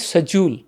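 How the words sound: It is said in a British accent. "आप UK में जाओगे, वो बोलते हैं"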